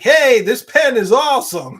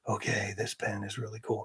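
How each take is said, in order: First: It is said in a casual, upbeat voice. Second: It is said in a low, measured voice.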